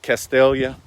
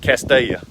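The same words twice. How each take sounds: First: The name is said with a clear L sound. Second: The name is said without an L, like Castiya. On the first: The speaker is not from the area. "If you're not from around here, you might would pronounce it Castalia" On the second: The speaker is from the area. "we pronounce it Castalia. ... C A S T I Y A"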